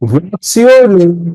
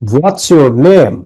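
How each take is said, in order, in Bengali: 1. শেষে কণ্ঠ ওঠে। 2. শেষে কণ্ঠ নামে। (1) "তাহলে উপরে উঠে গেল, তাহলে হবে না।" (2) "কণ্ঠ নিচে নামবে"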